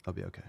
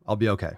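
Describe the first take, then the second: First: Much softer, fading self-reassurance; calming down quietly. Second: Said in the usual way. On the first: Real, not acted. Host calms himself after rant, fading soft. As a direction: talk yourself down to near silence.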